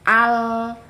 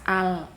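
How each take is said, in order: First: The L is held before its release. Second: The L is released abruptly right away. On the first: The speaker calls it right. "tapi al" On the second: The speaker calls it wrong. "jangan langsung dilepas al"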